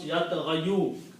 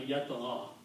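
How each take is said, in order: First: The word ends with a 'yu' sound. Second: The word ends on 'gha' without 'yu'. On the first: The speaker calls it wrong. "it's very hard to pronounce" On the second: The speaker calls it right. "we adjust the sound to make it easy on the tongue"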